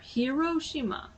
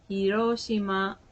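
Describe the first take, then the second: First: One syllable is given strong stress. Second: All syllables are said evenly, without stress. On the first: The speaker calls it wrong. "in America, they say Hiroshima" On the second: The speaker calls it right. "You don't put an emphasis on any of the words"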